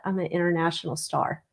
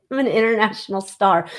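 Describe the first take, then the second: First: Quiet aside. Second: Proclaiming it through a laugh; grandly crown yourself, chuckling; tongue-in-cheek star boast with a laugh. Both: Real, not acted. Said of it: "So I'm gonna say that".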